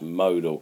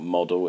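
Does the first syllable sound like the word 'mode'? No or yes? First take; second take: yes; no. First: The first syllable sounds like the word 'mode'. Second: The first syllable does not sound like 'mode'. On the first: The speaker calls it right. "it's modal. And we should know that mode" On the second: The speaker calls it wrong. "it's not modal"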